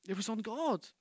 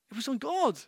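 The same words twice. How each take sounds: First: Softer, dropping "It was on God"; quiet emphatic. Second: "God" lifted higher in the repeat; higher emphasis. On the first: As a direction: let it sink in quietly. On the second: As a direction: press the repeat firmly. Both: Shown as a demonstration.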